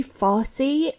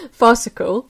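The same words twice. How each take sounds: First: "farcy", said casually as a wrong word form in two syllables; slip of the tongue. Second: "farcical" said in full with three syllables, far-ci-cal, as the corrected word; self-correction. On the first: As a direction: toss out "farcy" as an unnoticed mistake. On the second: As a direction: put the right word "farcical" firmly after a laugh. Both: Real, not acted. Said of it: "sorry, not farcy".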